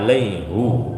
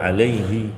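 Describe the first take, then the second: First: The word ends with an 'u' vowel. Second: The word ends with an 'i' vowel. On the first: It is read as handed down in this verse. "dibaca alaihu" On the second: It follows the usual grammatical rule. "mestinya kan alaihi secara kaidah"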